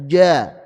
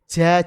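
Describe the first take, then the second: First: The j is pulled back toward the tongue root. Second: The j is made too far forward, with breath. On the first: "mundur sedikit ke pangkal lidah" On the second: "terlalu depan lagi menjadi ja"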